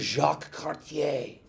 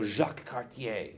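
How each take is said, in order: First: "Jacques Cartier" said the French way, zhahk kar-tee-AY; French pronunciation. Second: "Jacques Cartier" repeated the French way, zhahk kar-tee-AY; French pronunciation. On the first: Teacher to class, showing off a French name, French pronunciation. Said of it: "doesn't get a whole lot much more French". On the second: Teacher repeating the explorer's name to class, French pronunciation. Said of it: "he is a Frenchman". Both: Shown as a demonstration.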